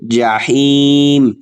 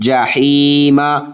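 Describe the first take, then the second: First: The word ends on a consonant, no vowel. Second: The word ends with a short a vowel. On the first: The reader stops at this word. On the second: The reading continues without stopping.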